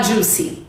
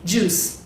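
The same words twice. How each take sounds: First: "juicy" with an added EE; "juicy", two syllables for juice; mispronunciation demo. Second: "juice" ending on the S; low, soft "juice" with no final vowel; one-syllable juice. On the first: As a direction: say juice wrongly as JOO-see. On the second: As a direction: say "juice" as JOOS, nothing after. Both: Shown as a demonstration. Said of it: "Não fala juicy".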